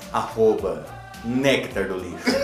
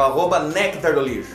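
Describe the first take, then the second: First: It is said in a put-on sensual voice. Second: It is said in a plain, normal voice.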